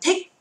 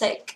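First: The vowel is long. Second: The vowel is short. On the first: The speaker calls it wrong. "không đọc là thick" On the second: The speaker calls it right. "âm này là âm y ngắn, ... mà âm này đọc là thick"

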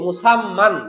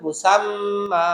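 First: The word ends with an 'an' sound. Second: The word ends with a long 'a' sound. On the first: The reader continues without stopping. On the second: The reader stops on this word.

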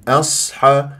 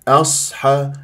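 Both takes have the same delivery.

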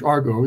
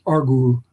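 First: The word ends with an 'oh' vowel. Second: The word ends with an 'oo' vowel. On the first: This is the usual English pronunciation. "We pronounce it in English" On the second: This is the original Greek pronunciation. "It's an omega at the end, so it's an u"

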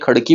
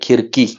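First: The word begins with 'khad'. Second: The word begins with 'khir'. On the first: This is the Marathi form of the name. The speaker calls it right. "खडकीला आपण मराठीमध्ये खडकी म्हणतो" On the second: This is the name as the English rendered it. The speaker calls it wrong. "नाहीतर खिरकी लिहिलेलं असायचं"

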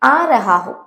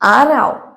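First: Every syllable of the phrase is fully pronounced. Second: The phrase is run together into a reduced form.

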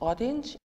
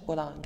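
First: The word is pronounced the English way. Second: The word is pronounced the French way. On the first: "In English" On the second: "In French"

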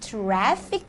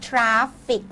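First: The first vowel sounds like 'cat'. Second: The first vowel sounds like 'ah'. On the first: The speaker calls it right. "ต้องเป็นสระแอ" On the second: The speaker calls it wrong. "หลายๆคนชอบอ่านว่า"

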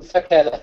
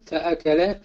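First: The glottal stop after 'fa' is dropped. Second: The glottal stop after 'fa' is pronounced. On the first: The speaker calls it wrong. "لا نستطيع أن نقول فكل" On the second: The speaker calls it right. "بل نقول فأكل"

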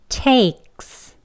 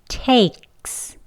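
First: A throat catch comes before the s. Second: The same.

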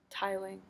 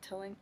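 First: The word is said as 'tiling'. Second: The word is said as 'tilling'. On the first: The speaker calls it right. "Tiling, right?" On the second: The speaker calls it wrong. "Did I pronounce it tilling? I'm so sorry"

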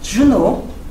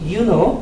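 First: The name begins with a J sound. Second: The name begins with a Y sound. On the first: The speaker calls it right. "my name is Juno" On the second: The speaker calls it wrong. "they think J sounds Y"

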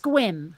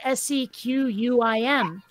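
First: The name is said as one syllable. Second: The name is said with three syllables. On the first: The speaker calls it right. "but it's pronounced Squim" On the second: The speaker calls it wrong. "it looks like it ought to be pronounced Sequium"

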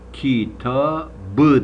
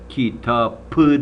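First: The middle consonant is a voiced 'b'. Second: The middle consonant is a voiceless 'p'. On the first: The speaker calls it right. "kitabı dersin" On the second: The speaker calls it wrong. "kitapı demezsin"

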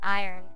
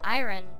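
First: The sounds are run together into one blend. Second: The R sound comes before the final vowel. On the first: It is a southern way of saying it. "sounds of words get kind of pushed together" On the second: It follows the spelling. "because it's how it's spelled. I-R-O-N. You put the R sound before the O-N"

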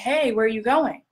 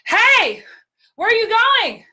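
First: It is said quietly, at normal room level. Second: It is said loudly, as over bar noise.

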